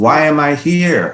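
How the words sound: It is said in an angry tone. "Out of anger"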